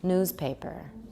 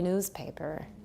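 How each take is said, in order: Both takes have the same delivery.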